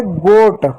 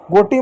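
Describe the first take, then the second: First: "गोट" ending on a released t; no final vowel. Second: "गोटी" with a long ee on the end; misread with extra vowel. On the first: Teacher correcting pupils, "गोट" closed on the t. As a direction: say "गोट" as one syllable, no ee after it. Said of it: "गोटी मत पढ़ दीजिए इसको". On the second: Teacher warning pupils off a misreading, "गोटी" ending in ee. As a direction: say "गोटी", wrongly adding "ee" to goat. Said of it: "गोटी मत पढ़ दीजिए". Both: Shown as a demonstration.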